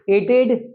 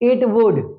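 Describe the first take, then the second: First: It is said as one contracted word. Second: It is said as two full words.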